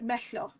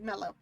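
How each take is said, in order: First: The double L is a hissing Welsh LL sound. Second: The double L is a plain English L sound. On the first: The speaker calls it wrong. "I would say like meshlo" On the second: The speaker calls it right. "instead of like mellow"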